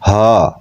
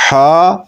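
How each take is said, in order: First: ہا breathed from the chest; deep-throat h. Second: ہا with a throaty mid-throat h; ہا with breath pushed from mid-throat. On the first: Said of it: "انتہائی حلق". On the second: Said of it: "وسط حلق سے ادا ہوتا ہے". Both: Shown as a demonstration.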